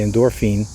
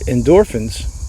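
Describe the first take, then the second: First: The last syllable is said with a long 'feen'. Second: The last syllable is said with a short 'fin'. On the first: The speaker calls it wrong. "We don't say endorphine" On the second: The speaker calls it right. "that's how we pronounce it"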